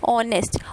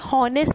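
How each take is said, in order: First: The word starts with a vowel sound. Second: The word starts with an h sound. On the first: The speaker calls it right. "हम क्या बोलते हैं इसे, ऑनेस्ट" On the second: The speaker calls it wrong. "हॉनेस्ट नहीं कहते"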